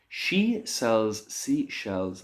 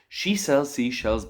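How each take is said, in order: First: It is said at a slower, normal pace. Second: It is said at a noticeably faster pace. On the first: "the most basic one that I can think of" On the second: "I'm going to say it again a little bit faster"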